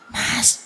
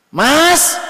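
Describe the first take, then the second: First: It is said very softly and quietly. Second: It is called out loudly and high.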